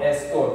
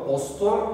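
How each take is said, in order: First: The word begins with a front e vowel. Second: The word begins with a rounded o vowel. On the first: "estor diyen var" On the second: "o'yu baz aldığımız için ostor yazmışız"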